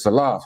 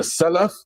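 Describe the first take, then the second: First: "Salaf" as suh-LAHF, second syllable stressed; queried pronunciation. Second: "Salaf" as SEL-uf, rising like a question; correcting pronunciation. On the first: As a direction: quote back "Salaf" with the long LAHF. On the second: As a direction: offer "Salaf" as a correction, first syllable stressed. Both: Retold or imitated. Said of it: "you said Salaf, you mean the Salaf".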